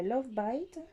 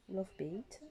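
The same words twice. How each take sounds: First: "Bite" said to rhyme with "kite"; unsure pronunciation. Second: "Bite" said like "bait", softly; unsure alternative pronunciation. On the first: Trying the shade's name, "Bite" rhyming with "kite". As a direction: say "Love Bite" with an "eye" vowel in "Bite". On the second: Second try at the shade's name, quiet "bait" for "Bite". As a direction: say "Love Bite" quietly with an "ay" vowel in "Bite". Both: Real, not acted. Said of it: "je sais pas comment ça s'appelle".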